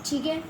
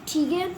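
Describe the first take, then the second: Both takes have the same delivery.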